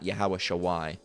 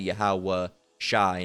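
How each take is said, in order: First: The last part is said with a W sound. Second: The last part is said without a W sound. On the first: The speaker calls it wrong. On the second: The speaker calls it right. "you would drop the the W sounding"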